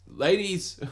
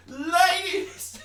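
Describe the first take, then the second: First: A raised call to the ladies, higher. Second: A strained, stretched-out squeak, far higher and slow, cracking into a laugh; a failed Bill Burr style ladies call; botched Bill Burr. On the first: First try at a comedian's call to women listeners. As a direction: hail the ladies like a comic. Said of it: "I'm gonna Jack Bill Burr here". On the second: Botched comic impression calling out to women listeners. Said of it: "I did it wrong". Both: Acted.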